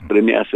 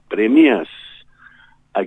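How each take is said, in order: First: The words are slurred together into one word. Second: The words are said as separate clear words. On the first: The speaker calls it wrong. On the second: The speaker calls it right.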